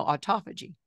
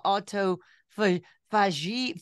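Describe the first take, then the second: First: Said in the usual way. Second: "autophagy" sounded out slowly and haltingly, syllable by syllable; stumbling over a new word. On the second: Retold or imitated. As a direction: fumble through "autophagy" slowly, like a word you just learned. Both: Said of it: "and now we know autophagy".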